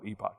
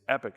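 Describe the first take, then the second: First: The word is said the British way. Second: The word is said the American way. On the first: "the British ... will call it epoch" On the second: "American English says E P O C H is epic"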